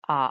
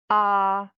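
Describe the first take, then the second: First: The pitch dips low, then rises. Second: The pitch stays high and level. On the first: "the third tone, it sounds like aha" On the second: "The first tone"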